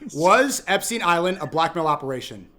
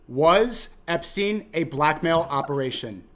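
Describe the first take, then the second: First: The question is spoken at a normal pace. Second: The question is spoken slowly and deliberately.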